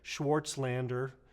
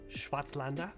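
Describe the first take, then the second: First: The name is said with American pronunciation. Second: The name is said with German pronunciation. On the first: This is an adapted way for Americans to say it. "for us Yankees" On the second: This is the original way to say the name. "I believe I'm pronouncing that correct"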